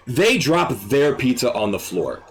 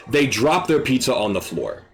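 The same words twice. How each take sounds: The two takes are said the same way.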